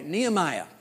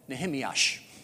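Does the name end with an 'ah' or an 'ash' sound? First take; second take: ah; ash. First: The name ends with a plain ah sound. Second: The name ends with an added sh sound.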